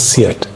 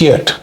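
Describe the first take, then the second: First: The name is said the present-day way. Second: The name is said the old Italian way. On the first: This is how the name is said now. "but now it is Seat" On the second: This is how the name was once said in Italy. "It used to be pronounced as Fiat in Italy"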